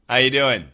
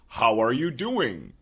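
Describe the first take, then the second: First: The word 'are' is dropped entirely. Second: The word 'are' is fully pronounced. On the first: This is how most Americans casually say hi. "we just say, Are is completely gone" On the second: This is the grammatically complete form. "most Americans never say"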